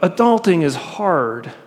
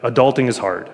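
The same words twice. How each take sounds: First: It is said with an added emotional tone. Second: It is said flatly, without added tone. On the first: "Obviously, I'm adding the tone in" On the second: "but I'll try to be objective"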